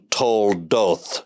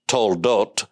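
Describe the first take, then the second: First: The word ends in a soft TH sound. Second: The word ends in a hard T sound. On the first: This is the classical form of the word. "in classical language" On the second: This is the modern form of the word. "Modern Hebrew has a hard T"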